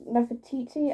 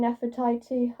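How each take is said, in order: First: Nefertiti with a "tee-tee" ending; alternative pronunciation. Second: Nefertiti with a "tie-tee" ending; guessed pronunciation. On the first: Vlogger trying Nefertiti another way, "tee-tee" ending. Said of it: "I don't know how to pronounce it". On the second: Vlogger unsure of Nefertiti, trying "tie-tee" ending. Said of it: "I have no clue how to say it". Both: Shown as a demonstration.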